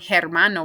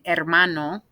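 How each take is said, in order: First: The h at the start is pronounced. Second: The h at the start is silent. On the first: The speaker calls it wrong. "we're not saying hermano" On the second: The speaker calls it right. "we're saying hermano"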